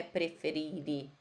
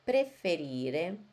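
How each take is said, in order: First: Preferire with a weak final i; wrong pronunciation. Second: Preferire with a clear final e; correct Italian pronunciation. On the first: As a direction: say preferire ending in a clipped i. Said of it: "Não é preferire". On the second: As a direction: say Preferire slowly, open e at the end. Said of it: "Tem que falar a letra E". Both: Shown as a demonstration.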